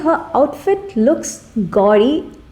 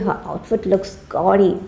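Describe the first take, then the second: First: The tone sounds impressed and approving. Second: The tone sounds unimpressed and disapproving. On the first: The speaker likes the outfit. "I'm like I'm impressed" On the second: The speaker dislikes the outfit. "which means that I'm not very impressed"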